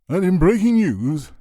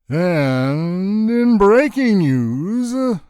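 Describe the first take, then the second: First: It is said in an ordinary pitch and pace. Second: Every syllable is stretched out very long.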